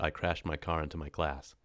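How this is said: It is spoken in an American accent. "But if an American did it, it would be"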